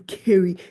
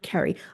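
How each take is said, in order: First: The name sounds different from the word 'carry'. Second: The name sounds like the word 'carry'. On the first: The speaker calls it right. "I am Kerry, K E R R Y" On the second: The speaker calls it wrong. "call me Carrie, like C A. You know, you carry a bag, that's Carrie"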